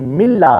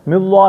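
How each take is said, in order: First: The L is thin and light. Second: The L is heavy and full-mouthed. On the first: The speaker calls it right. "बल्कि मिल्ला" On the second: The speaker calls it wrong. "मिल्लाह नहीं पढ़े"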